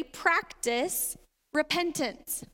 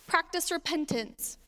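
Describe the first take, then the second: First: Slow emphasis. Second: "Practice repentance." said again, falling, stress on "Practice"; repeated for emphasis. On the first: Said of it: "number three, practice repentance". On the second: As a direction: land the word "Practice" hard and let it fall. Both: Shown as a demonstration.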